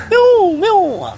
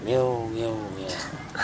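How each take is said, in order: First: High, loud mock meow; cat meowing. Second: Low, soft plaintive meow. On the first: Mouse turned cat meows. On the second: Acted. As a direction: meow low and small, fading. Cat answers the sage.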